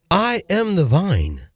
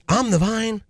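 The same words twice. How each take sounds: First: Very slow, each word of "I am the vine" separate; emphatic repeat. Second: Said in the usual way. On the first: Real, not acted. Preacher repeats the verse for listeners, slow and emphatic. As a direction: spell out "I am" in full, slowly.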